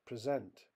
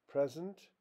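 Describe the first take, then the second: First: PreSENT, the verb, weak first vowel and strong SENT; stress on second syllable. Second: PREsent, the noun, pitched high on PRE; stress on first syllable. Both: Shown as a demonstration. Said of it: "More examples".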